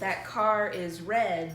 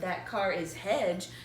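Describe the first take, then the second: First: The last word has an English R sound. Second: The last word starts with a Portuguese H-like sound. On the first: The speaker calls it right. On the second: The speaker calls it wrong.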